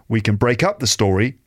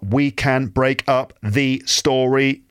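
First: The word 'can' is said in a short, weak form. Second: The word 'can' is said in its full, strong form. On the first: The speaker calls it right. "but we can break up the story" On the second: The speaker calls it wrong. "Not we can break up the story"

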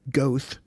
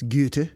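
First: The name is said with an English-style pronunciation. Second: The name is said with a German-style pronunciation. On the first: The speaker calls it wrong. "I would have said Goethe" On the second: The speaker calls it right. "I think it's Goethe, because he was a German"

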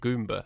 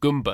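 First: The word is said with a British accent. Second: The word is said with a Brooklyn accent. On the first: The speaker calls it wrong. "I always pronounced it Goomba" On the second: The speaker calls it right. "and then I remembered that it's Goomba. Because we're from Brooklyn"

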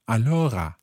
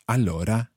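First: The R is a guttural, French-like R. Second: The R is a standard Italian trilled R.

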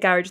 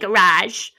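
First: It is pronounced the Irish way. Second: It is pronounced the American way. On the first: "every time I say garage" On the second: "do you mean garage?"

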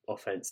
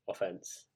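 First: The word is said with American pronunciation. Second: The word is said without American pronunciation. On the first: The topic is American football. "only when I'm talking about American football" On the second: The topic is anything other than American football. "if I'm talking about anything else"

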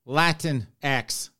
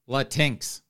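First: The ending is said like the letter X. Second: The ending is not said like the letter X.

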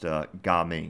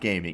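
First: It is said as two separate syllables, Ga Ming. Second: It sounds like the English word gaming. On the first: The speaker calls it right. "pronounced Ga Ming" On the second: The speaker calls it wrong. "It's not gaming"

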